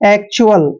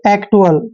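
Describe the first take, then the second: First: The middle consonant is a 'ch' sound. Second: The middle consonant is a plain 't' sound. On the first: The speaker calls it right. "इसको हम चुअल पढ़ेंगे, ऐसे चुअल" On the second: The speaker calls it wrong. "जो beginner होगा इसको पढ़ेगा एक्टुअल"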